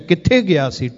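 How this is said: The question is asked in a harsh, angry tone. The asker is upset with the person. "ਜਦੋਂ ਗੁੱਸੇ ਵਿੱਚ ਪੁੱਛਿਆ"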